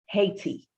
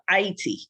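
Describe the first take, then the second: First: The name has its usual English pronunciation. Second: The name has its Haitian Creole pronunciation.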